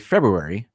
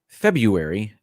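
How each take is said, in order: First: The first R sound is clearly pronounced. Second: The first R sound is left out. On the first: "calling attention to it makes it worse" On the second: "It was without the R"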